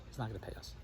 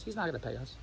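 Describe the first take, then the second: First: Much softer, low muttered aside; muttered imitation. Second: Softer, lower imitation of the wife; mild doubtful wife. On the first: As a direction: mumble it dismissively under your breath. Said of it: "Andrea says". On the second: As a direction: mutter it like a skeptical wife. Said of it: "Then Andrea says".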